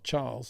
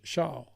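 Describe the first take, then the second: First: It begins with a ch sound. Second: It begins with a sh sound. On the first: The speaker calls it wrong. "It's not Charles" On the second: The speaker calls it right. "it's sh Charles"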